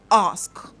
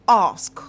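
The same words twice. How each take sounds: First: The word ends with an s then k. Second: The word ends with an s then k.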